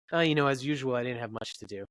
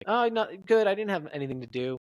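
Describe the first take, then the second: First: Offhand reply. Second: High, louder opening that settles; animated reply. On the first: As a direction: shrug it off as nothing special. Same words, different meaning, acted. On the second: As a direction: react big on the first words. Acted answer contrasted with flat one. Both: Shown as a demonstration.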